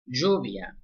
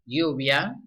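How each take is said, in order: First: The first consonant sounds like English sh. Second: The first consonant sounds like English y.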